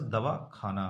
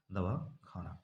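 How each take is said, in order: First: Said in the usual way. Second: दवा खाना run together as one word, meaning dispensary; दवाखाना said without a break, softly; pause as one word. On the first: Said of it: "संगम होने या न होने से". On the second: Shown as a demonstration. Teacher contrasts दवा खाना with दवाखाना, joined without pause. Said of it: "दवा खाना जो है डिस्पेंसरी की बात".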